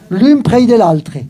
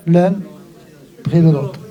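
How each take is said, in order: First: Slowly recited, a touch higher, in Occitan; slow Occitan recital. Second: Said in the usual way. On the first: Shown as a demonstration. Storyteller reciting the Occitan line to the audience, slowly. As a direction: savour each Occitan word, slowly. Reading Occitan text, then translating.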